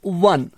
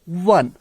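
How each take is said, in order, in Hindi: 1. शब्द w ध्वनि से शुरू होता है। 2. शब्द w ध्वनि से शुरू होता है।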